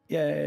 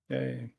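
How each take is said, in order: First: The yay sounds lively and enthusiastic. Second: The yay sounds flat and unenthusiastic.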